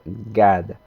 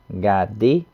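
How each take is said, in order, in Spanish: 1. La palabra se acorta y se pierde la vocal final. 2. La palabra se dice completa, con su vocal final.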